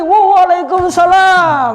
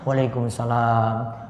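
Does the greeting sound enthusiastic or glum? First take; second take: enthusiastic; glum. First: It sounds lively and full of energy. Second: It sounds glum and low in energy. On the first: The responder is glad to welcome the guest. The speaker calls it right. "jawab lebih semangat lagi" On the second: The responder is troubled and not glad of the visit. The speaker calls it wrong. "Wah cemberut"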